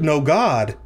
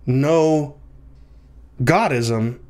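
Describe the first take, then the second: First: "no God" joined, then a pause before "ism"; group "no God" as one unit, "ism" set apart. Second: "no", a clear pause, then "Godism" as one word; group "Godism" together, leaving "no" on its own; pause after "no". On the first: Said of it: "negating God and then putting ism on that negation". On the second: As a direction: split "no" off from "Godism". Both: Shown as a demonstration.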